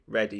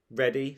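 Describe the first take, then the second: First: Said in the usual way. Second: READY rising like a question. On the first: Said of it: "said rude Ralph". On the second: A narrator's reading. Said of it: "said horrid Henry".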